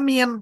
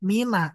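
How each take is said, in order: First: The word ends on the consonant n. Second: The word ends with an added a vowel. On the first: A voweled letter follows the word. "kalau setelah min huruf berharokat ... maka kita bacanya min" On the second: A vowelless letter follows the word. "kalau setelah min huruf mati, maka kita baca mina"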